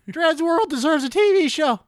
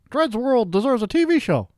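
First: It is said in a put-on, cracking cartoon voice. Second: It is said in the speaker's normal voice.

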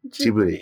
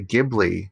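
First: The name is said with a Japanese pronunciation. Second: The name is said with an English pronunciation. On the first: "if I am speaking in Japanese, I will say" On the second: "it's just easier for me to say Ghibli"

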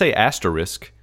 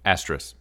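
First: The final K sound is clearly pronounced. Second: The final K sound is left off. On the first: "that sounds like overpronunciation of the K to me" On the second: "So you're not pronouncing the K"

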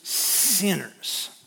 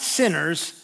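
First: The word is said with a contemptuous snarl. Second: The word is said in a plain, neutral way. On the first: Despised, disreputable outcasts. "the kind of thing where you'd snarl and turn up the corner of your mouth" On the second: People who have simply done wrong. "Not sinners"

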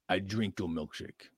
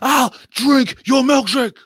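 First: It is read in a plain, ordinary voice. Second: It is said in a put-on character voice.

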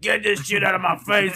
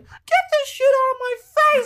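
First: It is said in a grown-up voice. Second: It is said in a childlike voice.

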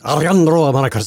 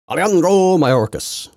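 First: It is said with a Spanish accent, R's rolled. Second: It is said with a plain English accent.

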